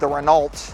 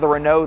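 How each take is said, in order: First: It uses an American pronunciation of the name. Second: It uses the standard pronunciation of the name. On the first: The speaker calls it wrong. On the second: The speaker calls it right.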